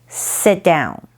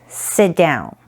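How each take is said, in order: No difference in how they are said.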